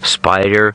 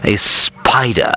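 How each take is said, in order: First: It is said in a neutral, normal accent. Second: It is said in an exaggerated posh English accent.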